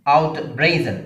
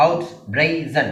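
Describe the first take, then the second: First: Said in the usual way. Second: out brazen split into three separate syllables. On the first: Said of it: "രണ്ടാമത്തെ syllable ആണ് stress". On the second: Shown as a demonstration. Teacher counting syllables, out brazen in three parts. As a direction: break out brazen apart evenly. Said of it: "മൂന്ന് syllable".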